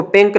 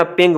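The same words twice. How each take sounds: First: पिंक ending on a hard k; wrong k pronunciation. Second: पिंग ending in a nasal ng, no k; ng pronunciation. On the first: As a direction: sound the final k in पिंक. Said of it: "इसको पिंक नहीं पढ़ना". (पिंक के अंत में क की साफ़ आवाज़) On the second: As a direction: close पिंग on the ng sound. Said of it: "पिंग पढ़ेंगे". (पिंग के अंत में इंग की आवाज़) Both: Shown as a demonstration.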